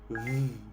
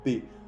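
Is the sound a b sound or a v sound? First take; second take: v sound; b sound. First: The letter is said with a v sound. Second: The letter is said with a b sound. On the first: This is how the letter is said in French. "Pero en francés el V se dice V" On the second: This is how the letter is said in Spanish. "La letra B o V en español se dice B, se pronuncia B"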